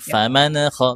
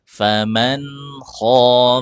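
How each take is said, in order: First: The nun bounces instead of stopping cleanly. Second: The nun is held still with no bounce. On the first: The speaker calls it wrong. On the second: The speaker calls it right. "tapi faman kho. Jadi nggak mantul dia"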